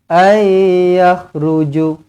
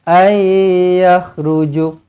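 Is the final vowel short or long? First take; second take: short; short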